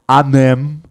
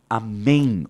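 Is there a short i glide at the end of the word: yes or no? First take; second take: no; yes. First: The word ends without an i glide sound. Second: The word ends with a short i glide sound. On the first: The speaker calls it wrong. "Não, não dá para falar desse jeito" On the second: The speaker calls it right. "Olha o som do i escondido"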